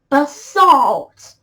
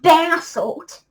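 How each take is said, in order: First: The word is said with a non-British pronunciation. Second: The word is said with a British pronunciation. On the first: The speaker calls it right. "it's actually basalt" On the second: The speaker calls it wrong. "I don't know why I keep saying it the British pronunciation"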